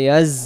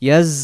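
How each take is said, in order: No difference in how they are said.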